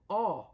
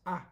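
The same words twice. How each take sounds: First: The vowel sounds between A and O. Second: The vowel is a plain A sound. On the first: The speaker calls it right. "a little bit more like A ... between A and O" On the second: The speaker calls it wrong. "we do not do not pronounce it as A"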